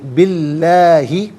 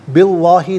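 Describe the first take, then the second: First: The L sound is thin and light. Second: The L sound is full and heavy. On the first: The speaker calls it right. "लाम को बारीक करके पढ़ा जाएगा" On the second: The speaker calls it wrong. "नहीं"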